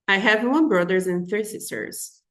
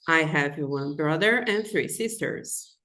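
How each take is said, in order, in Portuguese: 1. A frase é dita muito rapidamente. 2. A frase é dita em ritmo normal.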